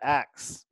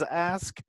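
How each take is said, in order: First: The word ends with a k sound before s. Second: The word ends with an s sound before k. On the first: This is the speaker's own dialect. "If you say axe, that's that's just how you say it" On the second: This is the standard form. "the proper way of saying it is is ask"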